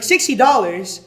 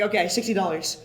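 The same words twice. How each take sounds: First: Louder, higher, drawn-out echo of disbelief; mock incredulous. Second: Said in the usual way. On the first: Woman haggling over a scalped ticket, imitated incredulity. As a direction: balk at the price, imitating an outraged buyer. Buyer balking at the price, retold.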